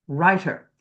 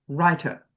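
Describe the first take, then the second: The two takes are said the same way.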